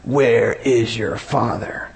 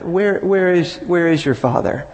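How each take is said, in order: First: The question sounds sneering and contemptuous. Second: The question sounds falsely humble and pious. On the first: The askers are openly wicked and hostile. "they're just these really wicked people, and now they're just" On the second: The askers hide their disbelief behind religious politeness. "they could come across as very pretentious and humble"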